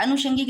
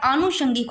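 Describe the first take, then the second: First: "आनुषंगिक" opening on short a; rejected pronunciation. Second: "आनुषंगिक" opening on long aa; corrected pronunciation. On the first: Teacher showing the error, "आनुषंगिक" with short first a. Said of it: "आनुषंगिक नहीं". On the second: Teacher giving the correction, "आनुषंगिक" with long first aa. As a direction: draw out the first vowel of "आनुषंगिक". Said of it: "आनुषंगिक होता है". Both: Shown as a demonstration.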